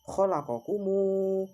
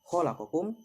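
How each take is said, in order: First: The word ends with an added u vowel. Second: The word ends on a closed m sound. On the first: "diganti dengan huruf dhammah dan dibaca dua harokat" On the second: "mem yang bersukun"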